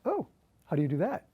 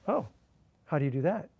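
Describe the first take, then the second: First: It sounds curious and interested. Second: It sounds puzzled and confused.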